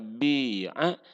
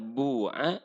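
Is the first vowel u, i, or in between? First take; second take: i; u. First: The first vowel is a clear i sound. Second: The first vowel is a clear u sound. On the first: "bisa bi'a" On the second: "Kalau dijual bisa bu'a"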